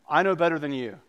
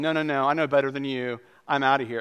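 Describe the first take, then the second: First: Said in the usual way. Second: A touch louder, brushing off the doctor; patient brushing off the doctor with a mild huff; stubborn dismissal. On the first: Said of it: "Naaman says". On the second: Retold or imitated. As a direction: dismiss the advice with mild indignation. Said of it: "going to the doctor and going".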